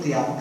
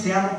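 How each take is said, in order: First: Said in the usual way. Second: Felt, heartfelt I love you; a sincere te amo from the heart. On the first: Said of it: "y otros". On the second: Shown as a demonstration. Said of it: "Porque hay unos".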